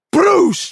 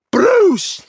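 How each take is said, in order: First: High, loud burst of "broosh"; imitated crash noise. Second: Very high, loud crash effect; imitated crash noise. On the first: Storyteller mimicking the shower bar crashing down, imitated crash noise. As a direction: punch out a crashing whoosh. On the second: All you heard when the bar fell, imitated crash noise. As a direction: let the crash burst out higher and bigger. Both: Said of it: "That's all you heard was".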